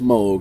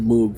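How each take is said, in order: First: Moog is said with an 'oh' vowel. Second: Moog is said with an 'oo' vowel. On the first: This is how the name is properly said. The speaker calls it right. "I know it's Moog" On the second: This is a long-held personal habit. The speaker calls it wrong. "I've been saying Moog for twenty-two years"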